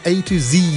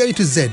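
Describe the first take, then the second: First: The last letter is said the American way. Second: The last letter is said the British way.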